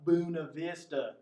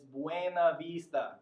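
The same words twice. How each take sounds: First: The name is pronounced the English way. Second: The name is pronounced the Spanish way. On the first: The speaker calls it wrong. "it's not" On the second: The speaker calls it right.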